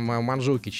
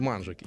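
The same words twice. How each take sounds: First: The stress falls on a later syllable. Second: The stress falls on the first syllable. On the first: The speaker calls it wrong. "не ... Манжукич" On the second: The speaker calls it right. "ударение на первый слог"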